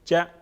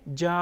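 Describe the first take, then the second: First: The vowel is short and clipped. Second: The vowel is drawn out long. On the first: The speaker calls it right. "जीम, ज़बर जा" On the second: The speaker calls it wrong. "इस तरह हमने नहीं पढ़ा, क्योंकि इस पे ज़बर है, इसको हमने रवा में खींच के नहीं पढ़ा"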